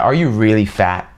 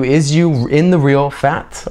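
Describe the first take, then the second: First: Said in the usual way. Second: Slow literal gloss. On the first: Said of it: "natural translation after gloss". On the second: Shown as a demonstration. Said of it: "spelling out literal meaning".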